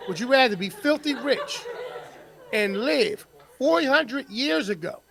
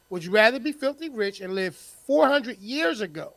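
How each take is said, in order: First: Laughing. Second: Said in the usual way. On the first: Shown as a demonstration. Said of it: "repeats question plainly". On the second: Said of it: "repeats question".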